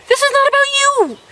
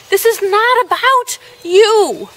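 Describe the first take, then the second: First: Much higher, fast, exasperated; shrill-free exasperated high take. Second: Slow, raised, each word pressed; stern slow take; slow stern scolding. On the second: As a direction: lay it down slowly and firmly. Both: Shown as a demonstration.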